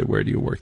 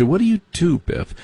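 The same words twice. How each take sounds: First: Said in the usual way. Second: High, lilting snob's what do you do; mock the rich kids' higher sing-song; snooty preppy question. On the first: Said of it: "They don't say". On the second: Mocking how rich kids ask about work, in a high snooty voice. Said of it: "They say".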